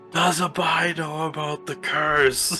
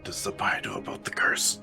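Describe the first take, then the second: First: It is said loudly, not whispered. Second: It is said quietly, almost whispered.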